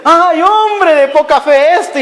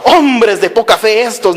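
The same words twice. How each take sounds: First: High, slow, fond teasing; almost laughing. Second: Mildly imitated angry preacher; mock angry rebuke. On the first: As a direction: chide lovingly as if amused, drawn out. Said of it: "prácticamente riéndose le dice". (reproche cariñoso, casi riéndose) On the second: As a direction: scold lightly in imitation, at normal pitch. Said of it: "así que el Señor enojado". (regaño enojado fingido, leve) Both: Shown as a demonstration.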